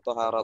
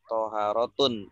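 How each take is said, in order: First: The word ends on a plain u vowel. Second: The word ends with an added n sound. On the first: The speaker calls it right. "kalau toharotu sudah betul" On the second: The speaker calls it wrong. "Makanya tidak toharotun, tidak tanwin"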